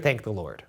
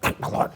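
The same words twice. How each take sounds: First: It is said in a plain, normal voice. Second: It is said in a Smeagol-like, creepy voice.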